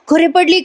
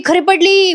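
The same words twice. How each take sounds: First: Higher mock call so the house hears; calling out loudly. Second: Higher, a little more urgent mock call; calling out loudly. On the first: Husband calls to the household that she fell, mild mock shout. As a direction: call out the news, lightly shouted. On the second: Husband calls to the household again, mild mock shout. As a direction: repeat the call, pushing it further. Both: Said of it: "मोठ्यानं ओरडत असतो".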